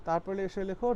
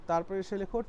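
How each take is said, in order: The two takes are said the same way.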